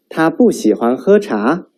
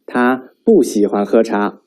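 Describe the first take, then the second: First: 他不喜欢喝茶 asked, 茶 lifted; rising question tune. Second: 他不喜欢喝茶 stated, 茶 falling; statement fall; falling statement tune. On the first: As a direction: raise the end like asking. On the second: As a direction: drop the end calmly. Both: Shown as a demonstration. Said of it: "Now read after me".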